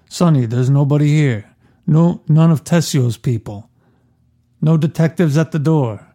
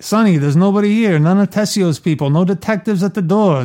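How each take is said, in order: First: It sounds calmer and more measured, like Michael. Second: It sounds tough and Brooklyn-like, like Sonny.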